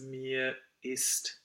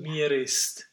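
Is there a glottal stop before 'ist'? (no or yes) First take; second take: yes; no. First: A glottal stop separates 'mir' from 'ist'. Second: The R links straight into 'ist' without a break. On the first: The speaker calls it right. "We need the space. We need a real glottal there" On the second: The speaker calls it wrong. "it would be so easy not to do the glottal. ... Then we would roll the R in that case"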